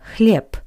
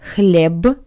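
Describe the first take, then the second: First: The word ends in a voiceless p sound. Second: The word ends in a voiced b sound. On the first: The speaker calls it right. "but хлеб. P, p" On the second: The speaker calls it wrong. "Not хлеб"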